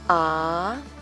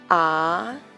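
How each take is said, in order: First: The pitch rises from mid to high. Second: The pitch rises from mid to high.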